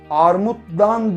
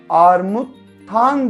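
First: The suffix begins with a voiced 'd' sound. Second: The suffix begins with a voiceless 't' sound. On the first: The speaker calls it wrong. "Armuttan demeyiz değil mi?" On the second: The speaker calls it right. "Armuttan deriz"

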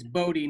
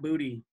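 First: The name sounds like 'Bodhi'. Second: The name sounds like the word 'booty'. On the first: The speaker calls it right. "It's Bodhi" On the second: The speaker calls it wrong. "not Booty"

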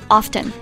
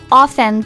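First: The word is said with a 't' sound. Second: The word is said without a 't' sound. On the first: "But I do hear a lot of people say often" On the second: "T is often is silent"

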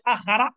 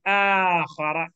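First: The alif vowel is said short. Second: The alif vowel is stretched long. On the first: The speaker calls it wrong. "You say akhara, you ignore the alif" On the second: The speaker calls it right. "say akhara"

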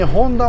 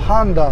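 First: The name begins with a 'hon' sound. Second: The name begins with a 'han' sound. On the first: "ちなみにホンダも" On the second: "ハンダって言います"

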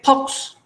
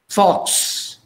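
First: The word begins with a substitute for f. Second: The word begins with a clear f sound. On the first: "they say fox. ... They can't say fox" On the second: "Like fox"

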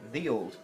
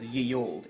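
First: The first word begins with a 'th' sound. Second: The first word begins with a 'y' sound. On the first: The speaker calls it right. "it's actually the old" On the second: The speaker calls it wrong. "any pub who says ye old"

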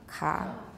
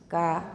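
First: The consonant is voiceless with a strong breath puff. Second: The consonant is voiceless with no breath puff.

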